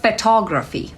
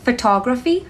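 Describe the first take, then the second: First: Photography said slowly and clearly with a falling end; pronunciation demo. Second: Photography said clearly with the tune rising at the end; teacher demo of Photography, ending up; pronunciation demo. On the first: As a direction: model Photography for learners, ending down. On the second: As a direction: model Photography again, lifting the end like a list item. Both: Shown as a demonstration. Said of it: "Listen to the pronunciation of the word".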